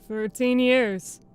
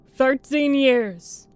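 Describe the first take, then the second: First: It is said in a casual, offhand way. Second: It is said in a feminine-sounding voice.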